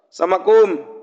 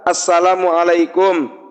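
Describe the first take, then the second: First: The greeting is clipped to a few syllables. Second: The greeting is said with every syllable. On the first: The speaker calls it wrong. "ada banyak salam itu yang salah dalam pengucapannya" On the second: The speaker calls it right. "Nabi ngajarin salam itu ada tiga"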